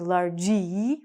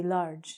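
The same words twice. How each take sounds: First: "largy" as lar-JEE, a drawn-out ee on the end; wrong sounded E. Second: "large" as one syllable, larj, ending on the j sound; silent E. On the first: Teacher showing the mistake, "largy" said lar-jee. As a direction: add a long second syllable to "largy", jee. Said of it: "we don't say in English largy". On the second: Teacher correcting the mistake, "large" as a single larj. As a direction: say "large" with no vowel after the g. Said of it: "we say large". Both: Shown as a demonstration.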